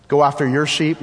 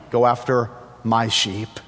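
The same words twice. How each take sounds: First: "Go after your sheep?" lifted as a doubtful question. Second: "Go after my sheep" settling lower, MY set apart; corrective stress on MY. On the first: Jesus questioning Peter on whose sheep, questioning. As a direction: ask "Go after your sheep?" as the wrong idea. Rejected question, then corrected. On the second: Jesus correcting Peter on whose sheep, stress on MY. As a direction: correct it firmly, weight on "my". Corrects the question just posed. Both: Acted.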